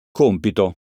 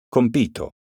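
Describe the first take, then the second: First: Compito said as COMpito, first syllable stressed; stress on COM. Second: Compito said as comPIto, middle syllable stressed. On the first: Teacher contrasting homographs for pupils, COMpito stressed. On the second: Teacher contrasting homographs for pupils, comPIto stressed. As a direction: lean on PI of Compito. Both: Shown as a demonstration. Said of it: "Eccone alcuni esempi".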